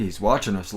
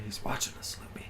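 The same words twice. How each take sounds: First: Said in the usual way. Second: Spooky hushed whisper. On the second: Pretend. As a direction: whisper it like a secret. Joke about a lurking viewer.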